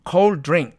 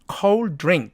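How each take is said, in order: The two takes are said the same way.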